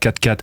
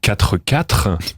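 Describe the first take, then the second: First: The words are clipped, with final sounds dropped. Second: Every syllable is pronounced fully and carefully. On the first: This is how everyone says it. The speaker calls it right. "tu dis pas quatre quatre" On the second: This sounds odd and overly posh. The speaker calls it wrong. "bah t'es bizarre"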